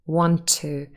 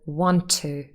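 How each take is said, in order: First: The two words share one linked T sound. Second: The two words share one linked T sound.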